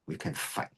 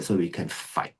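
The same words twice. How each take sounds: First: Very soft, voiceless whisper; whispered repeat. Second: Said in the usual way. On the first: Real, not acted. Teacher echoes the reason for training, whispered. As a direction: drop to a whisper for the echo.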